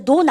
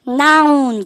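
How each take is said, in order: First: The vowel is a plain 'oh' sound. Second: The vowel is a gliding 'ow' sound. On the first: The speaker calls it wrong. "근데 논 아닌데" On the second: The speaker calls it right. "noun 그러셔야 됩니다"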